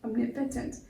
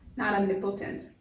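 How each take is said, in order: First: The vowel after the N is a weak, reduced sound. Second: The vowel after the N is a full O sound. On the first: The speaker calls it right. "this O has taken on a short E sound" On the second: The speaker calls it wrong.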